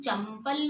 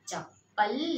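First: An m sound comes before the p. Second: A long doubled p with no m sound. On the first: The speaker calls it wrong. "हम चंपल नहीं बोलते हैं, हाँ चंपल गलत है" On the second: The speaker calls it right.

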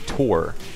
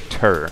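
First: The vowel sounds like 'oor', as in 'poor'. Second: The vowel sounds like 'er', as in 'fur'. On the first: This is the usual way to say the word. The speaker calls it right. "we say tour" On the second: This is not how the word is said. The speaker calls it wrong. "we don't say tur"

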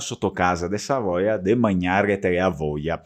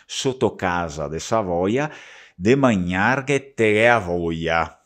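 First: It is recited at a faster pace. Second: It is recited at a slower, normal pace.

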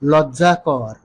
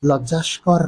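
First: The word has no s sound before k. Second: The word has an s sound before k. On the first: The speaker calls it right. "তাহলে বলুন লজ্জাকর" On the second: The speaker calls it wrong. "লজ্জাস্কর নয়"

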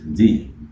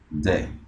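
First: The word ends with an 'ee' vowel. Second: The word ends with an 'uh' vowel. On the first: The next word begins with a vowel. "tiene dos pronunciaciones. Una de ellas es di" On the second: The next word begins with a consonant. "y la otra es de"

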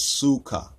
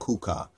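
First: The word begins with an S sound. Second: The word begins with a K sound. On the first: The speaker calls it right. "it's really in the S sound" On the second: The speaker calls it wrong. "it's not kuka"

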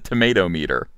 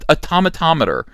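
First: It is said in an American accent. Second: It is said in a British accent.

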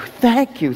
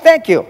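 First: The thanks is said warmly, with heartfelt feeling. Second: The thanks is said flatly, without real feeling. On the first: The thanks comes from real gratitude for a gift. "It's sincere and it has meaning" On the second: The thanks is given only because someone was prompted. "it sounds insincere"

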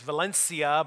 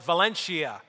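First: It is pronounced the Spanish way. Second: It is pronounced the local American way. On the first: This is how the place in Spain is properly named. "good pronunciation of that place in Spain is Valencia" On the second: This is how locals named their own town. "here in western Pennsylvania, we called it Valencia"

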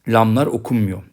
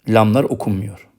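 No difference in how they are said.

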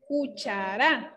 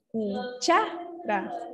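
First: The stress is on the last syllable. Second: The stress is on the middle syllable. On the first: The speaker calls it wrong. "si fuera aguda, miren, entonces diría cuchara. La mayor fuerza va en la última sílaba" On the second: The speaker calls it right. "tiene que ser en cha, ¿verdad? Entonces, diríamos cuchara. Es correcto, es palabra grave"

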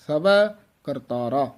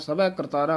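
First: There is a short pause after the first word. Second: The two words run together without a pause. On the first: The speaker calls it right. "ਇੱਥੇ ਯਮਕ ਲਾ ਦੇਣੀ ਹੈ" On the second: The speaker calls it wrong. "ਇਕੱਠਾ ਨਹੀਂ ਕਹਿ ਦੇਣਾ"

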